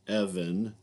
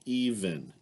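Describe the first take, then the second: First: The first vowel is a short eh sound. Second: The first vowel is a long ee sound. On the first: The speaker calls it wrong. "Instead of eh" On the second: The speaker calls it right. "I'll use the e sound"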